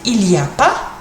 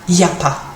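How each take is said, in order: First: The opening 'il' is pronounced. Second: The opening 'il' is dropped. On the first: "we can do like the French and just say" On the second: "or even shorter"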